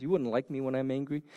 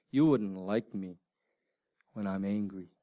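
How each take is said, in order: First: Said in the usual way. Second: Lekko odegrany filmowy cytat, nisko i z pauzą; a low, measured movie-line delivery, lightly acted, pausing midway; Doctor Banner. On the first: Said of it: "You ever see that movie?". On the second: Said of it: "what does he say? What's the famous line?".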